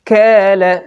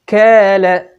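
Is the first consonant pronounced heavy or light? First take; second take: light; light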